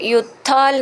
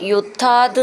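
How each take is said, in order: First: The word ends with an l sound. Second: The word ends with a t sound. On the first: The speaker calls it wrong. "ഇവിടെ യുദ്ധാൽ എന്നാണ് എഴുതിയിട്ടുണ്ടാവുക" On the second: The speaker calls it right. "യുദ്ധാത് എന്നാണ് ഉച്ചരിക്കേണ്ടത്"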